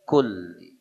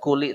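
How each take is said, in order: First: The L sound is held and doubled. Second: The L sound is short and single. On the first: The speaker calls it right. "Kalimat kulli harus ditekan" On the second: The speaker calls it wrong. "tidak kuli"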